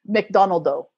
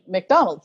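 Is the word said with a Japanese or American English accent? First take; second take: Japanese; American English. First: The word is said with Japanese-style syllables and inflection. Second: The word is said with a plain American English accent. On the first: The speaker adapts to be understood by local listeners. The speaker calls it right. "you would have to change your inflections to match theirs" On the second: The speaker uses their own usual pronunciation. The speaker calls it wrong. "Instead of just saying McDonald's"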